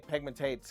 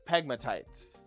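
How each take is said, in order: First: The last syllable sounds like 'tates'. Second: The last syllable sounds like 'tites'. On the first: The speaker calls it wrong. "but I say pegmatates because I'm an idiot" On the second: The speaker calls it right. "It's pronounced pegmatites"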